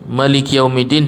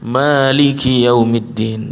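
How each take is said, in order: First: The first vowel of Maliki is kept short. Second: The first vowel of Maliki is held long. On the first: "Maknya pendek" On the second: "maknya pan panjang"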